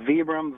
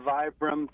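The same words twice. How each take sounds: First: "Vibram" said VEE-brum; "Vibram" starting like "vee"; long-E Vibram. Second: "Vibram" said VY-brum; "Vibram" starting with "eye" sound; long-I Vibram. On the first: Guest says both ways are right, "Vibram" as VEE-brum. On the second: Guest says both ways are right, "Vibram" as VY-brum. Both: Shown as a demonstration. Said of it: "Both ways are right".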